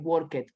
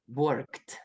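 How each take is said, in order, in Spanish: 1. La terminación se pronuncia como una sílaba extra. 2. La terminación es un sonido corto de t. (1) "no puedo decir worked" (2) "Suena como una T"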